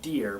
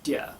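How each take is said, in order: First: The final R sound is pronounced. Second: The final R sound is dropped. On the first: "as dear becomes dear" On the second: "as dear becomes dear"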